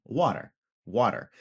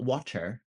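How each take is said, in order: First: "Water" with a quick D for the T; New England tapped T. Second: "water" with a crisp, true T, softer; hard T. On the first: Teacher shows the regional sound, tapped "water". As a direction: soften the T in "water" to a tap. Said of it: "but not in New England". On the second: Teacher shows what it isn't, careful hard-T "water". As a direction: enunciate the T in "water". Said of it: "It's not water". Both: Shown as a demonstration.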